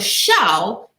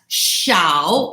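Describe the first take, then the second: First: Said with the tone that gives 'laugh'. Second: Said with the tone that gives 'small'. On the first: The word means to laugh. "So shao is to laugh" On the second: The word means small. "If you say it with that intonation, it means small"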